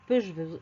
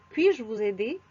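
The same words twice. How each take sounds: First: Peux-je said pœʒ, the incorrect form; wrong form demo. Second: Puis-je said pɥiʒ with a rising question; correct form demo. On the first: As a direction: show peux-je as the mistake. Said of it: "c'est faux". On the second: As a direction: model Puis-je as the right form. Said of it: "Je peux devient ... puis-je". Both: Shown as a demonstration.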